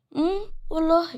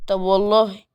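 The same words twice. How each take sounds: First: High, soft mocking "really"; girl mocking Adam's threat, light and high; teasing girl. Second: Put-on Adam daring the girl through the door, firm; defiant man. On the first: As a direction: tease him back, much higher and softer. Girl answers the dare teasingly. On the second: Adam dares her at door.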